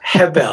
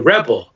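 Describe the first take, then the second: First: The name is said the Brazilian way. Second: The name is said the American way.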